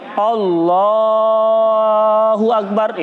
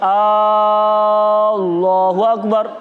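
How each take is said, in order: First: The l sound in the first word is drawn out. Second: The opening vowel of the first word is drawn out. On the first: The speaker calls it right. "kalau mau dipanjangkan lamnya" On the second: The speaker calls it wrong. "Kalau dipanjangkan hamzahnya"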